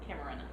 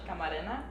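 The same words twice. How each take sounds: First: The name is pronounced with English sounds. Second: The name is pronounced with Spanish sounds. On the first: "but like English" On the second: "you can also pronounce it like in Spanish"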